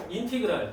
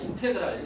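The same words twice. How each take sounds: First: 인티그랄, second syllable as "ti"; integral read with "ti". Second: 인테그랄, second syllable as "te"; integral read with "te". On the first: Teacher showing students a reading of the symbol, 인티그랄 with "ti". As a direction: say 인티그랄 with an "ee" after the t. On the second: Teacher offering students the other reading, 인테그랄 with "te". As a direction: say 인테그랄 with an "eh" after the t. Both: Shown as a demonstration. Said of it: "인티그랄 또는 인테그랄 이렇게 읽으면 되겠습니다".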